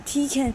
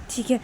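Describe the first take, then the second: No difference in how they are said.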